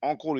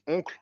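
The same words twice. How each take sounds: First: Said in the usual way. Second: "oncle" said the French way, with nasal "on"; French pronunciation. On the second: Shown as a demonstration. Host explaining Tonton to listeners, "oncle" pronounced in French. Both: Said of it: "We, we call it oncle in French".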